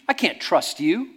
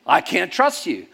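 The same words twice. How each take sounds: First: I can't trust you, louder and slower; mock accusation. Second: I can't trust you, loud and slow, now from the pastor; turned-back accusation. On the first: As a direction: point the finger and drag it out. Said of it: "And he went". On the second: Retold or imitated. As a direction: mirror his accusation back. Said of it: "I said".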